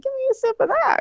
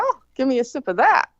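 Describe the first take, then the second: First: Much higher-pitched insistent plea; eager repeated request. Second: Said in the usual way. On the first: Retold or imitated. Partygoer repeating the request to strangers, high and insistent.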